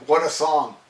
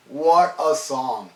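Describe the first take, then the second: First: Said in the usual way. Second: Savoured slowly. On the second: Real, not acted. Fan praising Electric Eye, savouring "What a song" slowly.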